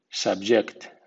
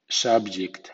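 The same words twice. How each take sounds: First: The first syllable carries weak stress. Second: The first syllable carries strong stress. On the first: It is the verb. "Y con acento débil" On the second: It is the noun. "SV suena sub con acento fuerte"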